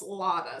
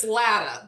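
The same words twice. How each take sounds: First: "Latta" said LAH-tuh, open ah vowel; "Latta" with a long father vowel. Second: "Latta" said LAT-uh, flat a as in cat; "Latta" with stressed first syllable, cat vowel; Latta with short a. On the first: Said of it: "it does get pronounced Latta sometimes". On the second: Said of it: "I'll say it with my Midwestern accent". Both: Shown as a demonstration.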